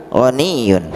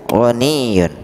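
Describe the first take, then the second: No difference in how they are said.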